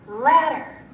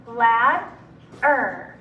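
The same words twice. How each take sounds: First: Said in the usual way. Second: Ladder in two separate syllables. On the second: Shown as a demonstration. Teacher breaking Ladder up for students, syllable by syllable. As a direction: split Ladder with a clear pause inside. Syllable blending drill, word broken up.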